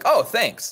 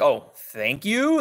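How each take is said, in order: First: The voice falls at the end. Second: The voice rises at the end.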